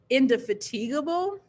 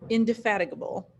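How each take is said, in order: First: The middle part sounds like the word fatigue. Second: The middle part does not sound like fatigue. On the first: The speaker calls it wrong. "I always thought it was indefatigable because that kind of sounds like the word fatigue" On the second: The speaker calls it right. "we're pronouncing it totally differently"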